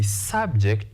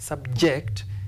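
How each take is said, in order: First: The stress is on the first syllable. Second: The stress is on the second syllable. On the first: It is a noun. "This is a noun because it is preceded by the definite article the" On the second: It is a verb. "If it is used as a verb, we stress the second syllable"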